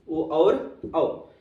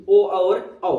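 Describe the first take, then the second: First: ओ और औ drawn out very slowly; very slow dictation. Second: ओ और औ called out louder; firm announcement. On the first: Teacher dictating the vowels to students, very slowly. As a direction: stretch out ओ और औ for students to copy. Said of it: "teacher repeats vowels slowly". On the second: Teacher announcing the next vowels to the class, loudly. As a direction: announce ओ और औ with a strong push. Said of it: "teacher introduces vowels". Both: Shown as a demonstration.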